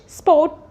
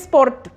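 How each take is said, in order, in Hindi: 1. R की ध्वनि मौन रहती है। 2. R की ध्वनि उच्चारित होती है। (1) "we will not stress on R" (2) "We don't say sport"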